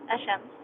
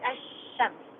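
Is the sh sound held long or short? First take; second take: short; long. First: The sh sound is single and short. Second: The sh sound is doubled and held long. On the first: The speaker calls it wrong. "not Ashams" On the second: The speaker calls it right. "double Shin"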